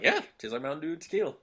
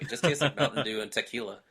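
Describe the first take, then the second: First: Higher, fast and upbeat; happily embrace the very same words; quick bright approving reply; cheerful agreement. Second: Mildly condescending retelling of the sister; a light touch of talking down about the drink; understated sniffy dismissal. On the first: Own answer set against sister's quote. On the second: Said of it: "said those exact words in a condescending way". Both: Retold or imitated.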